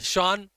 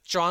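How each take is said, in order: First: The name starts with a 'sh' sound. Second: The name starts without an S sound.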